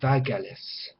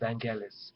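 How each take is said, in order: First: The name is said without an N sound. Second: The name is said with an N sound. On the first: The speaker calls it right. "The N is not pronounced in in, um, in Greece" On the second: This is how it is said in England. The speaker calls it wrong. "I've always been hearing it in England anyway, pronounced as [name]"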